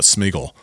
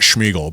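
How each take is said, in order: First: The name begins with a plain 'sm' sound. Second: The name begins with a 'shm' sound. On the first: The speaker calls it right. "but Smeagol" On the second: The speaker calls it wrong. "not Schmeagle"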